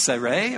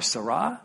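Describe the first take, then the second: First: Sarai as "say-RAY", both syllables long; Hebrew name pronunciation. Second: Sarah as "suh-RAH", ending in a long ah; Hebrew name pronunciation. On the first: Preacher trying the Hebrew name, Sarai said "say-ray". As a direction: pronounce Sarai carefully as "say-ray". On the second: Preacher trying the Hebrew name, Sarah said "suh-RAH". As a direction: pronounce Sarah with a short first syllable, "suh-rah". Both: Shown as a demonstration. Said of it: "how to pronounce the names".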